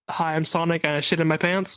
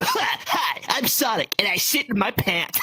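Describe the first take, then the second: First: It is said in a normal voice. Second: It is said in a Sonic impression voice.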